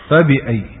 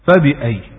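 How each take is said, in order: No difference in how they are said.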